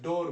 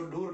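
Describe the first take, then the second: First: "डोर" said with a long o vowel, like "door"; correct pronunciation. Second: "डूर" said with a long oo vowel, like "doo-r"; wrong pronunciation. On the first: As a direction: say "डोर" with an open o sound. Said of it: "डोर बोलते हैं". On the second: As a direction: say "डूर" rhyming with "moor". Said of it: "इसको डूर नहीं बोलते हैं". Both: Shown as a demonstration.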